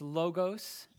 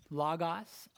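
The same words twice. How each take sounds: First: "logos" said slowly as LOH-gohs with long o sounds, rising; "logos" pronounced LOH-gohs, slow and rising; Greek word slowly. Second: "logos" said as LAH-gahs with open ah vowels, rising; "logos" pronounced LAH-gahs, quick and rising; Greek word repeated. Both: Shown as a demonstration. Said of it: "In the Greek".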